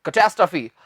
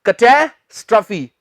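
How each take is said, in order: First: catastrophe run together, lower, no break; unbroken "kuh-TAS-truh-fee" for catastrophe; joined as one word. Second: catastrophe split as "kuh-TAE... struh-fee"; catastrophe in two teaching chunks; broken into parts. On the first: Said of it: "एक साथ बोलना है आपने". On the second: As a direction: break catastrophe in two, pausing after "TAE". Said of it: "ये तो मैंने तोड़कर बोल दिया". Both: Shown as a demonstration.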